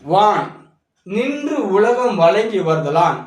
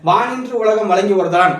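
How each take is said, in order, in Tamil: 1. முதல் இரண்டு சொற்களும் ஒரு பிரிவால் பிரிக்கப்பட்டுள்ளன. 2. முதல் இரண்டு சொற்களும் பிரிவு இல்லாமல் சேர்ந்து ஒலிக்கின்றன.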